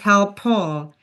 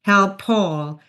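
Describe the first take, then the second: No difference in how they are said.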